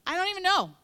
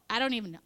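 First: High, loud exasperated cry; overwhelmed. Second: Said in the usual way. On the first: Retold or imitated. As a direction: throw up your hands in exasperation. Overwhelmed mom voiced in story.

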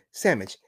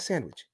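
First: "Sandwich" said as SAM-itch; slang pronunciation of sandwich. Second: "sandwich" with a clear SAND and WICH; standard pronunciation of sandwich. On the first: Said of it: "we have the tendency to say sandwich". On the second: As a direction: sound the nd and w in "sandwich". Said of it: "Not sandwich". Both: Shown as a demonstration.

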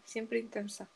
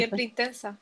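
First: Much softer under-the-breath repeat; quiet echo. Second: Said in the usual way. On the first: Shown as a demonstration. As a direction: echo it to yourself, softly. (eco murmurado, mucho más suave)

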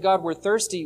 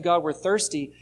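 First: A gentle, trusting ask, lightly voiced; trusting request. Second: A mild complaining whine, only lightly acted; grumbling complaint. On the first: Israel asking God politely, in a lightly acted trusting tone. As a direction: ask humbly, as someone who trusts. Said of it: "It'd be one thing if they said". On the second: Israel grumbling at God, a mildly voiced complaint. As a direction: grumble it like a thirsty crowd that doubts. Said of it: "they're not asking God politely". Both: Shown as a demonstration.

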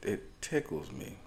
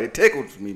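First: Quiet take. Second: Loud, sassy emphasis; exaggerated sassy punch; with stank on it. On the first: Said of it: "too much stank". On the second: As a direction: lean into it with attitude. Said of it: "I said it with a little too much stank on it". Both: Real, not acted.

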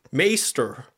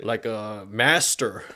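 First: "Maester" with a long ay vowel, drawn out; mock British. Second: Said in the usual way. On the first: Mocking Andrew Tate's accent, saying "Maester" as meɪstə. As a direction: say "Maester" like a posh Brit, meɪstə. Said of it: "he kinda has a British a".

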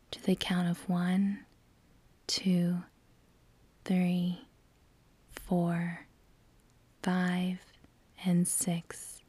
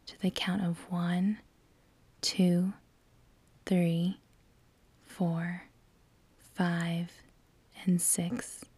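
Both takes have the same delivery.

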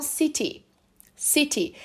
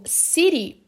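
First: "city" with a crisp, fully sounded T; British true T. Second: "city" with the T as a quick tapped R; American flapped T. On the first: Teacher contrasting UK with American speech, true T. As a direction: say "city" the British way, T clearly released. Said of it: "lá no Reino Unido eles falam". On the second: Teacher showing learners the American sound, flapped T. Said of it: "que eu falo no inglês americano". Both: Shown as a demonstration.

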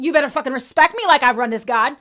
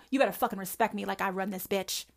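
First: Loud demand. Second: Softer, muttered self-righteous demand; quieter demand. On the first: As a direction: bark it out like a self-righteous believer. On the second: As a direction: drop it down, still demanding. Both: Retold or imitated.

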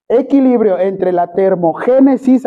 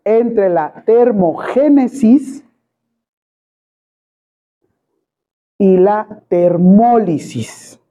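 First: Termogénesis said with the stress on its first E. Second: Very slow, word by word, for note-taking; slow dictation. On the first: Teacher dictating to the class, stressing the first E of termogénesis. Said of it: "acento en la primera E". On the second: Teacher dictates the definition to students, very slowly. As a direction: spell out termogénesis and termólisis slowly. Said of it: "Es equilibrio". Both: Shown as a demonstration.

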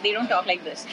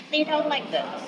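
First: Said in the usual way. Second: Put-on little-girl voice, pitched up high; girlish high voice. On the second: Shown as a demonstration. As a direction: talk like a ten-year-old girl.

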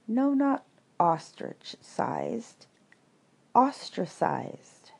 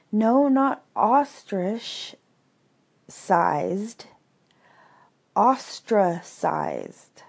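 First: Slow, careful correction of "ostrich-sized" to "Ostracized"; patient correction. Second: Much slower, drawn-out "Ostracized", each syllable spaced; weary second correction. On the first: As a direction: spell out "Ostracized" slowly for a slow listener. Eeyore corrects Pooh. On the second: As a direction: stretch out "ostrich-sized" and "Ostracized" in tired exasperation. Eeyore repeats, exasperated. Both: A narrator's reading.

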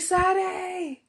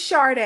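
First: "Sade" said SAH-day, with a plain S; high mocking "Sade" as sah-DAY, no R; mimicked mispronunciation. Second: "Sade" said SHAR-day, with SH and R; "Sade" starting with a clear SHAR; corrected pronunciation. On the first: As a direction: imitate the ex saying "Sade" with S, not SH. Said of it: "the way he said my name". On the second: Shown as a demonstration. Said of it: "It's Sade, actually".

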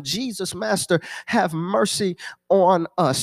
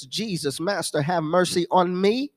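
First: "have mercy on us" slowed, falling on "us"; drawn-out plea for US. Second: "me" lifted in a rising tune; questioning stress on ME. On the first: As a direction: stretch "have mercy on us" into a slow group plea, "us" dropping. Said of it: "They all said the same thing". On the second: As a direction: end on a rising "me", as if nobody would say it. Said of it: "Nobody says". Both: Acted.

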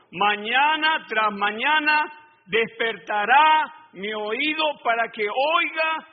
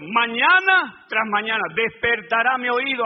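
First: Each word drawn out slowly; slow, weighty verse read to the congregation; slow scripture reading. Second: Mañana tras mañana despertará mi oído called out loud at full pace; verse shouted back to the congregation, loud; proclaimed verse. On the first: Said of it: "Mira, hermano". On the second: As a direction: proclaim the verse as a rallying cry. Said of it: "A la palabra de Dios". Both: Shown as a demonstration.

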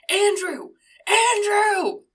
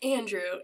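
First: High, loud name holler, building; hammed-up bellow, second one bigger; imitated parent yelling. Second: Said in the usual way. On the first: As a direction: try the name out as a yell. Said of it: "they yell at first". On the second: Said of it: "And she's like".

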